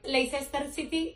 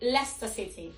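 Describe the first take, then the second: First: The name is pronounced with Spanish sounds. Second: The name is pronounced with English sounds. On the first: The speaker calls it wrong. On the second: The speaker calls it right.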